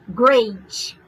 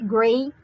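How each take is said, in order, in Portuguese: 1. A palavra termina com som de 'ch'. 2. A palavra termina com um T simples e nítido. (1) "A gente faz great" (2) "você pode falar o T"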